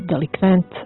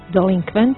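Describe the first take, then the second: First: The word is said without an n before k. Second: The word is said with an n before k. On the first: The speaker calls it wrong. "često čuju bez prvog na" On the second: The speaker calls it right. "pravilno je"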